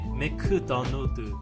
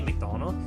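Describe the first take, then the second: First: It is said in a Korean accent. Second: It is said in an American accent.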